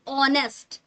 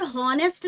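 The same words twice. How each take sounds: First: "ऑनेस्ट" starting on an open o vowel; silent h. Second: "हॉनेस्ट" with the h wrongly sounded; mispronounced h. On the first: Teacher models honest for students, "ऑनेस्ट" with silent h. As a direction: say "ऑनेस्ट" with no h at all. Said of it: "क्या बोलेंगे यहाँ पर". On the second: Teacher shows students the mistake, "हॉनेस्ट" with a spoken h. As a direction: start "हॉनेस्ट" on an audible h. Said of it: "ये गलत तरीका होगा उच्चारण का". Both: Shown as a demonstration.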